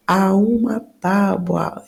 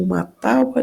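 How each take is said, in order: First: "uma" slowly drawn out before "tábua"; stress on UMA. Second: Said in the usual way. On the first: Shown as a demonstration. Teacher isolates phrase to analyse article. (ênfase em "uma", dito devagar)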